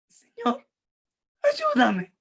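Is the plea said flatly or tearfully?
tearfully. It is said tearfully, as a desperate plea.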